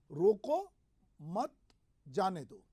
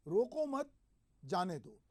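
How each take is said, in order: First: "रोको", "मत", "जाने दो" set apart by pauses; pauses splitting phrase. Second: Group "रोको मत", stop, then let "जाने दो" fall; pause after मत. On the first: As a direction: stop after "रोको", then "मत", pause, falling "जाने दो". ("रोको" पर उठता सुर, फिर "मत" और "जाने दो" अलग-अलग रुककर) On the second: ("रोको मत" ऊँचे सुर में साथ, रुककर "जाने दो" नीचे) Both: Shown as a demonstration. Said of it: "अलग-अलग तरीके से इस वाक्य को कहता हूं".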